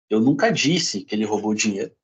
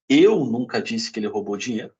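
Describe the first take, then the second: First: The stress falls on the word disse. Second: The stress falls on the word eu. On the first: It may have been written, not said. "posso ter escrito" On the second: Someone else said it. "pode ter sido outra pessoa"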